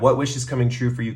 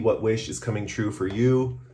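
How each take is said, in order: First: It is said in a normal voice. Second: It is said in a put-on accent. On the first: The speaker calls it right. "let's talk in a normal voice" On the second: The speaker calls it wrong. "I feel like I'm talking weird"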